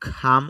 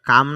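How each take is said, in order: First: The first k sound has a puff of air. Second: The first k sound has no puff of air. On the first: The speaker calls it right. "এখানে aspiration হবে" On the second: The speaker calls it wrong. "কাম না বলে আমরা খাম উচ্চারণ করব"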